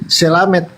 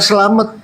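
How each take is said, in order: First: The last vowel is an 'e' sound. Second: The last vowel is an open 'a' sound. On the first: This is how it is said in Papua. "kalau kita ke Papua bukan selamat, selamet" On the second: This is how it is said in Java. "Kalau di Jawa selamat"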